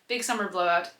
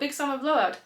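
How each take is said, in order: First: It is said in the speaker's ordinary voice. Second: It is said in a put-on character accent.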